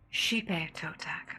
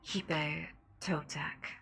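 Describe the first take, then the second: First: The name begins with an sh sound. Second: The name begins with a breathy h sound. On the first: The speaker calls it right. "Oh, it's she" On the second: The speaker calls it wrong. "like a breathy kind of sound to the pronunciation"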